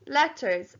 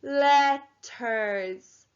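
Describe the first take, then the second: First: Said in the usual way. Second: LETTERS stretched into two long syllables; syllable counting. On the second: Shown as a demonstration. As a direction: draw out LETTERS slowly, syllable by syllable. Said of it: "Let's count out the syl".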